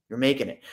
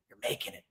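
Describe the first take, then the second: First: Said in the usual way. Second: Whisper. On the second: Real, not acted. Whispered aside to viewers.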